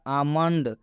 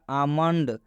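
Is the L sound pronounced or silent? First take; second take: silent; silent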